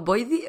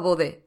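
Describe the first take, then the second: First: The name is said with an English-like 'oi' sound. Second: The name is read out letter by letter, Spanish-style. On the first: This is the pronunciation the speaker has just learned. The speaker calls it right. "acabo de aprender que es Void o Boidy" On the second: This is how the speaker used to say it without knowing. The speaker calls it wrong. "pero así, tal cual, a lo bestia"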